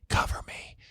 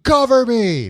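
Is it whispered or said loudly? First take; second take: whispered; loud. First: It is whispered quietly. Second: It is said in a loud voice.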